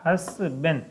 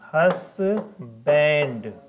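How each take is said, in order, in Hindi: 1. आख़िरी अक्षर बिना d के ben जैसा सुनाई देता है। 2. आख़िरी अक्षर d के साथ band जैसा सुनाई देता है। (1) "इसका सही प्रोनाउंसिएशन होता है हसबेन" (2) "हसबैंड बोलते हैं"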